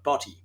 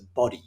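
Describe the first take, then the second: First: It is said in an Australian accent. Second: It is said in an American accent.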